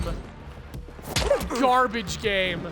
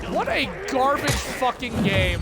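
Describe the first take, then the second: First: "garbage" stretched out slow in disgust; a very slow, contemptuous repeat; disgusted drawl. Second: Said in the usual way. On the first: Real, not acted. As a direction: drag "What a garbage game" out, savoring the contempt.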